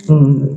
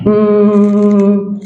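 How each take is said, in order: First: Short low "mmm"; lowered hum. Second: Raised hum. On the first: Coach showing how to lower tone, lowered hum. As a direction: bring the cow-like hum down low. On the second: Coach showing how to raise tone, raised hum. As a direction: lift the cow-like hum and hold it. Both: Shown as a demonstration. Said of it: "intentar elevar o bajar".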